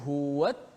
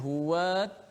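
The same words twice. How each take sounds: First: The wa sound is short, running straight on. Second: The wa sound is drawn out long. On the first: The speaker calls it right. "kita terus masuk" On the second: The speaker calls it wrong. "Tak boleh huwat, ah, tak boleh panjangkan wa itu"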